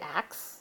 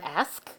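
First: The word ends with a k-s sound. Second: The word ends with an s-k sound. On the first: The speaker calls it wrong. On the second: The speaker calls it right.

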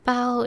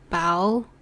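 First: The pitch stays level without rising. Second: The pitch rises like a question. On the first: It means a bread bun. "bao is bread" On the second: It means being full after eating. "like a question"

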